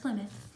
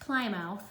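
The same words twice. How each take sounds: First: The final syllable is short and reduced. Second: The final syllable is said in full. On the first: The speaker calls it right. "but it's pronounced Plymouth" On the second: The speaker calls it wrong. "Not Plymouth. I know that's what it looks like"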